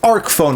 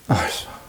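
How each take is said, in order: First: The first word ends with a k sound. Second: The first word ends with an s sound. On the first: The speaker calls it right. "Of course it's arc phone" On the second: The speaker calls it wrong. "Nobody calls it arse phone unless they're being cheeky"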